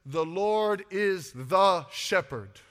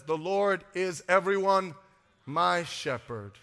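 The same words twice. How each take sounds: First: Loud, slow, drawn-out "the" before shepherd; stress on "the". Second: "my" set apart by a pause and dropped in pitch; pause, then land slowly on "my"; stress on "my". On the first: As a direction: lean hard and long on "the". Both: Shown as a demonstration. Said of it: "No, the Bible says".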